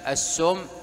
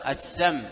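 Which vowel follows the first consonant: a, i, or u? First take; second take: u; a. First: The first vowel is a u sound. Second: The first vowel is an a sound. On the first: "وبالضم" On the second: "ينطق بالفتح"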